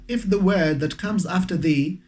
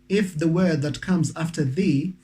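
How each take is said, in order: No difference in how they are said.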